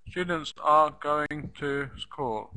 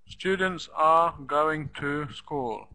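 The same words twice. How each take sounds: Both takes have the same delivery.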